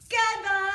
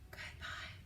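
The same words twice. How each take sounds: First: It is said very loudly. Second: It is said very quietly.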